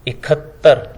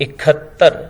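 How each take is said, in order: No difference in how they are said.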